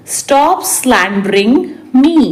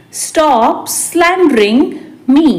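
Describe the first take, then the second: First: Said in the usual way. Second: Stretched words; slow repeat. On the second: Shown as a demonstration. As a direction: pause before the last word. Teacher repeats translation word by word. (धीरे-धीरे, खींचकर)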